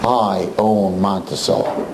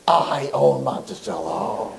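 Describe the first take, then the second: First: Low, slow threat; a hint of a gangster boss, slow and low; menacing owner. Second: Low, slow and softer threat; menacing owner. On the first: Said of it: "That's what he tells us". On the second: Retold or imitated. Owner warning the rabbi who he's up against, low and slow. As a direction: murmur it like a quiet mob boss. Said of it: "And he's like".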